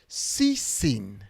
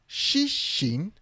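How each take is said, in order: First: The name is said with plain s sounds. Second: The name is said with sh sounds. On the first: The speaker calls it wrong. "This is wrong to read it in English" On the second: The speaker calls it right. "To write that student's name Shishin"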